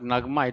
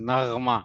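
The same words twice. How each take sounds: First: The consonant is a plain hard g. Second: The consonant is a throaty guttural gh. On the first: The speaker calls it wrong. "It is not नगमा" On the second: The speaker calls it right. "गैन आएगा। ... It is नगमा"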